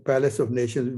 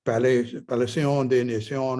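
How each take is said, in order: First: Said in the usual way. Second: Palais des Nations said the French way, pa-LAY day na-SYON; a playful stab at French to impress; mock French pronunciation. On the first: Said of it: "I like to pronounce like a Fr". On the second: Shown as a demonstration. To impress people, a mock French Palais des Nations. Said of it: "if you want to sound French and impress people".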